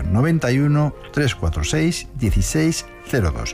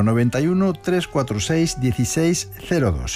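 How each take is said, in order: First: The number is read more slowly. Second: The number is read at normal speed.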